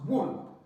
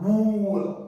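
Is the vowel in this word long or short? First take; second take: short; long. First: The vowel is short, like in put. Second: The vowel is long, like in school. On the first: The speaker calls it right. "it's wool" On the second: The speaker calls it wrong. "Don't make the mistake of pronouncing this word as wool. No, it's not the long sound"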